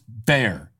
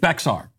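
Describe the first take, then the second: First: It sounds like 'bear', with no 'ks' sound. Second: It is said with a 'ks' sound in the middle. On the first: The speaker calls it wrong. "B-E-X-A-R is not pronounced bear" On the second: The speaker calls it right. "It's Bexar"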